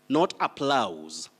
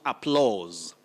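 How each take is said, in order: First: The vowel is not a long 'aw' sound. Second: The vowel is a long 'aw' sound. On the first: The speaker calls it wrong. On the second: The speaker calls it right. "we also talk about applause"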